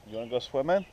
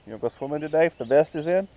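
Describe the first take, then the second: First: Said in the usual way. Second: Higher, louder and fast, coaxing the dog; quick eager sing-song question; excited dog talk. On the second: Real, not acted. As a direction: hype the dog up about swimming. Asking the dog again, eagerly.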